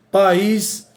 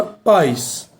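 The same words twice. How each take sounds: First: "país" in two syllables, pa-ÍS, stress on ÍS; hiatus in país. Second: "paz" said as one gliding syllable, PAIS. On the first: Teacher showing the accented word, "país" split as pa-ÍS. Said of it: "sem acento vira outra palavra". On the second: Teacher showing the word without accent, "paz" as one syllable PAIS. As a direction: glide "paz" like "pais", stress on A. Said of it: "vai virar a palavra paz". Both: Shown as a demonstration.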